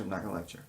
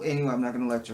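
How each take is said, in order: First: Softer, muttered repeat; mock self-reminder under the breath; quieter repeat. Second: Said in the usual way. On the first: Real, not acted. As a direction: say it again to yourself. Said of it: "repeat dropped".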